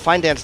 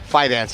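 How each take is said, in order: First: An N sound comes before the D. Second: No N sound comes before the D. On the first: The speaker calls it wrong. "I always put an N in there" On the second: The speaker calls it right. "Fidance, yeah"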